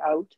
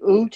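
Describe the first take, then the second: First: The vowel is a gliding 'ow' sound. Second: The vowel is a long 'oo' sound. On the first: This is how the region actually says it. "we say out or about" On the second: This is the stereotype outsiders claim to hear. "we don't say oot in Atlantic Canada"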